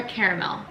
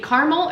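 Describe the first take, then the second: First: Caramel in three syllables, CARE-uh-mel. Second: Caramel in two syllables, CAR-mel. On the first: Home baker offering the other way, caramel as CARE-uh-mel. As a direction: say caramel with an opening CARE and full middle vowel. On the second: Home baker weighing how to say it, caramel as CAR-mel. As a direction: say caramel as CAR-mel, dropping the middle vowel. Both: Shown as a demonstration. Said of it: "what's the right way to say it".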